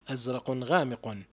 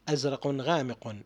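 No difference in how they are said.

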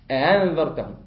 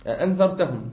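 First: The second hamza is softened toward a long a. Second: The second hamza is pronounced fully. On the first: "إذا أردت أنا أن أسهلها أقول هكذا" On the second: "الهمزة هنا مفتوحة"

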